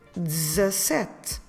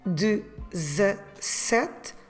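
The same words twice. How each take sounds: First: It is said faster with two syllables. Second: It is said clearly with three syllables. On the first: "people do it faster and it sounds like dezessete. Two syllables" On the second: "the word itself is dezessete"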